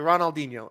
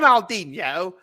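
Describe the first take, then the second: First: It is said in an American accent. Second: It is said in an English accent.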